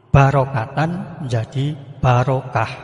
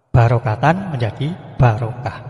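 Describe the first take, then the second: The two takes are said the same way.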